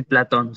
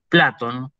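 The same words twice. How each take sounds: First: Said in the usual way. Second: "Platón" said PLA-ton, stressed at the start; stress on first syllable. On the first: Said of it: "no se dice". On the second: Shown as a demonstration. Teacher corrects to Greek "Platón", stressed PLA-ton. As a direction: put the accent of "Platón" on PLA, not the ending. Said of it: "se dice Platón".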